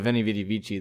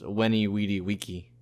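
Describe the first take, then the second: First: Each word begins with a V sound. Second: Each word begins with a W sound. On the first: This is the later pronunciation. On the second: This is how it was said back then.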